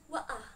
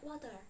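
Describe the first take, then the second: First: It is said in a British accent. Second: It is said in an American accent. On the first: "ketika aksen British itu dibilangnya waah" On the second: "Amerikan bilangnya water"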